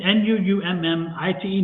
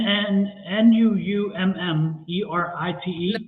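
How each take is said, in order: First: Letter-by-letter "N U U M M I T E", each letter separate; second, corrected spelling of "Nummite" after being told. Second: Slow letter-by-letter spelling "N U U M M E R I T E"; first try at spelling the stone's name, letter by letter; spelling it out wrong. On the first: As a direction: spell "N U U M M I T E" carefully, one letter at a time. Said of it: "Yeah, Nummite". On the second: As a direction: spell out "N U U M M E R I T E" slowly, one letter at a time. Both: Shown as a demonstration.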